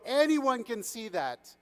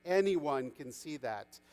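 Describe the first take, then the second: First: High, slow, emphatic chorus line; whole crowd agreeing. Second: Slow, low-key agreement; calm agreement. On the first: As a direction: proclaim it for everyone aboard. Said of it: "said everyone on the boat". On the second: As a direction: concede the point calmly. Fisherman calmly agrees with prince. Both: A narrator's reading.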